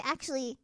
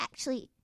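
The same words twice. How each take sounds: First: Said in the usual way. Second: "Actually" with its syllables cut short. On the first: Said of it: "instead of". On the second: Shown as a demonstration. Showing British-influenced speech, "Actually" cut short. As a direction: shorten "Actually", softly, ending on a rise. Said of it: "I'll just cut everything short".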